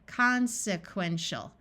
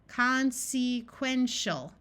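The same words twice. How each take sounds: First: The second syllable has a short vowel. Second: The second syllable has a long vowel. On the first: The speaker calls it right. "we will switch from a long vowel to a short vowel" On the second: The speaker calls it wrong. "we will try the long vowel sound first"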